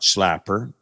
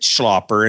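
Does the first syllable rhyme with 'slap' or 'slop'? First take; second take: slap; slop. First: The first vowel sounds like the 'a' in slap. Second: The first vowel sounds like the 'o' in slop. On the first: The speaker calls it wrong. "and not Schlapper?" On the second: The speaker calls it right. "Why is it Schlapper"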